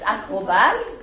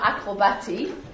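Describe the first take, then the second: First: The word ends on the T sound. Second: A vowel sound follows the final T. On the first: The speaker calls it right. "you don't hear the E" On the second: The speaker calls it wrong. "It's not acrobati"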